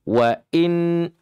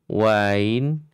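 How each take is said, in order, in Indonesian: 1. Hamzah-nya tegas dan kuat. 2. Hamzah-nya lemah dan kabur. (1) "Nah begitu ya" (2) "ini termasuk kesalahannya berat"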